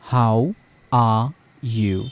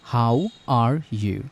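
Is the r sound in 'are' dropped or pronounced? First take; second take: dropped; pronounced. First: The r sound in 'are' is dropped. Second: The r sound in 'are' is pronounced. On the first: "UK বলতে চান তখন এখানে বলতে হবে আ।" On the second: "আর বললে এটি American, ওকে? US."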